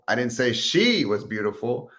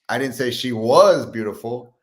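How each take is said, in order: First: The word "she" carries the main stress. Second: The word "was" carries the main stress.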